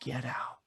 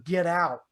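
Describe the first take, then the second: First: Low, quiet ghostly command; soft, low eerie warning; voice in his ear. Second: Said in the usual way. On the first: Retold or imitated. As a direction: murmur it low, as if right into someone's ear. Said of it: "they said in my ear". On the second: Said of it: "he's freaking out".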